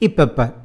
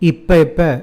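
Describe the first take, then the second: First: It is said fast, run into one word. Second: It is said as two separate words.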